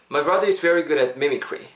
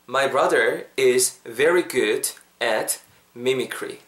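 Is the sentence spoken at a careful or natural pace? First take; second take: natural; careful. First: The sentence is spoken at a natural, flowing pace. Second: The sentence is spoken slowly and carefully. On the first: "One last time, more naturally" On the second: "한 번만 더"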